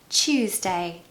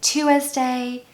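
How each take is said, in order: First: The word starts like 'choose' then 'day'. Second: The word does not start like 'choose'. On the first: The speaker calls it right. "it's just the word choose and then day" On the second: The speaker calls it wrong. "I hear people saying Tuesday"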